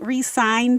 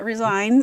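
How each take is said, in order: First: The word is said as re-sign, meaning sign again. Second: The word is said as re-zign, meaning quit. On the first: The players sign again. The speaker calls it right. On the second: The players quit. The speaker calls it wrong.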